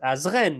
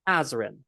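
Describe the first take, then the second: First: The stress is on the last syllable. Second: The stress is on the first syllable. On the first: This is the French way of saying it. "But in French, it's Azren. It's the end that's emphasized" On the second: This is the English way of saying it. "in English, my name is Azrin. It's loud at the beginning"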